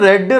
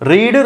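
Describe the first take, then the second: First: The vowel is short, sounding like red. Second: The vowel is long, sounding like reed. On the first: It is the past tense form. "వి two" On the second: It is the present tense form. "V one"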